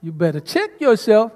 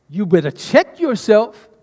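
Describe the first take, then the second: First: Sister's sassy take on the line; with attitude. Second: Slow, stern soldier warning; with attitude. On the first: Shown as a demonstration. Sister shows the congregation the line, sassy. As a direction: say it like you mean it. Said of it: "How would you say that?". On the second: Retold or imitated. Drill leader warning a soldier, stern attitude. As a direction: talk down to a messing-up soldier. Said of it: "I have to say it with conviction and with attitude".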